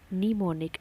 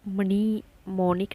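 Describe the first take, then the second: First: The first m is silent. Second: The first m is sounded. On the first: The speaker calls it right. "एम silent हो गया" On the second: The speaker calls it wrong. "मनी मोनिक नहीं बोला"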